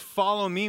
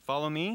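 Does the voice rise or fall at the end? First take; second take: fall; rise. First: It falls at the end, like a command. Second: It rises at the end, like a question.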